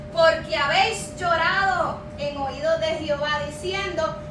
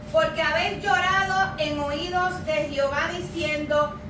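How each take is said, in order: Both takes have the same delivery.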